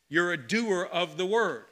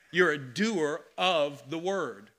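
First: Said in the usual way. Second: Each word of "You're a doer of the word." set down slowly and heavily; slow emphasis. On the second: Shown as a demonstration. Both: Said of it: "repeated line".

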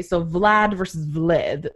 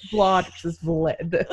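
First: First Vlad with a broad ah, then Vlad with a short flat vowel; two pronunciations. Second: Vlad as Vlahd then Vlad as Vlid, slowly through a laugh; giggling while contrasting Vlad and Vlad; slow laughing Vlad versus Vlad; two pronunciations, laughing. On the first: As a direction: contrast Vlad as Vlahd against Vlad as Vlid, slowly. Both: Shown as a demonstration. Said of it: "His name is pronounced Vlad".

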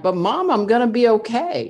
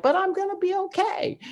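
First: Retold insistence, pitched higher and louder; pleading with mom that all is fine, voice raised; reassuring mom. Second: Much higher, lightly squeaky mock of her teen self; sing-song reassurance. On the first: Teen daughter grabbing her crying mom by the shoulders, higher, louder reassurance. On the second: Teen daughter insisting to her weeping mom, very high mock voice. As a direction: chirp it up high, cheerfully insisting.

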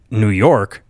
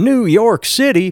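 First: Said in the usual way. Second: High-pitched, drawn-out mock ad cry; incredulous salsa-ad cowboy send-up; Pace Picante ad impression. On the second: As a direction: quote the salsa commercial, stretched out and way up high. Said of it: "Pace Picante".

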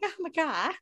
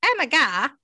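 First: High, softer mock disbelief; pitched-up, held-back retold excitement; imitating Robert's amazement. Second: Higher, louder mock exclamation; loud, pitched-up retold excitement; imitating starstruck amazement. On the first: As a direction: lightly imitate a starstruck friend. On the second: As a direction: blurt it in pretend disbelief. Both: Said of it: "Not quite like me, but".

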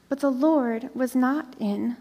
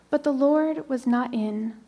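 Both takes have the same delivery.

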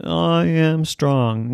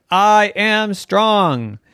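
First: Slow strong declaration. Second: Very slow, louder I am strong; slow bold declaration. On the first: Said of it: "Now you try it". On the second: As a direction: say it slow and proud. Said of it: "Try it again". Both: Acted.

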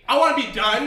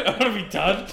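First: High, loud mock whine; mock plea. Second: Louder mock whine echoing back. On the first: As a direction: whine it like a begging kid. Begging mock plea, high pitch. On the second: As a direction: parrot the whine back teasingly. Friend echoes the plea mockingly.

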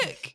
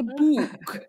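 First: "book" with a short fronted Scottish oo; quick Scottish "book"; own Scottish pronunciation. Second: "book" with a drawn-out oo; exaggerated long-vowelled "book"; imitated correction. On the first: Retold or imitated. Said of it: "You mean a book?". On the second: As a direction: mimic someone correcting "book", stretching the vowel. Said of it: "And then they go".

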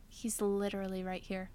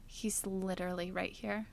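First: Flat annoyed dad. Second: Annoyed dad. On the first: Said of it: "He was like". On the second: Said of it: "from his voice that he was so annoyed". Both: Retold or imitated.

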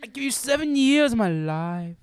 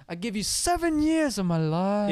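First: High, loud, slow swell on years; crescendo and decrescendo. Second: High, loud and slow, swelling; musical phrase. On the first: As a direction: sing it like a phrase. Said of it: "It's like a crescendo and dec". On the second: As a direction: crescendo then decrescendo. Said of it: "this one actually reminds me of, like, a musical phrase". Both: Retold or imitated.

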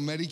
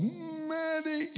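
First: Said in the usual way. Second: Sudden high, piercing yell; yelling for the medic. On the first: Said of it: "When I yelled". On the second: Retold or imitated. Wounded soldier in a helicopter yelling for the medic, piercing yell. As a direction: cry out for help in sharp pain. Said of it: "And I yelled".

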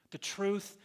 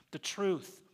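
Both takes have the same delivery.

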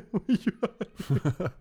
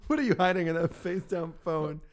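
First: Laughing mock. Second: Teasing. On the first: Teasing repeat, laughing. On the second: Pretend. Teasing repeat.

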